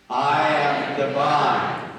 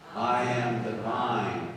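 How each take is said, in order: First: It is said loudly, with great energy. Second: It is said calmly, with little energy.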